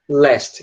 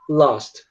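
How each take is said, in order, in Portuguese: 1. A vogal soa próxima de um som de 'e'. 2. A vogal soa mais fechada, próxima de um som de 'o'. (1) "O A virando E em todos eles" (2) "aproximar ele do som de A... Que é um som A quase um O"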